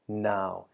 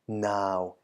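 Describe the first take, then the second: First: The syllable is said with a low tone. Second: The syllable is said with a low tone.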